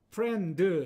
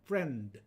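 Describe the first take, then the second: First: An extra vowel sound is added after the final consonant. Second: The word ends cleanly on the final consonant. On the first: The speaker calls it wrong. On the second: The speaker calls it right.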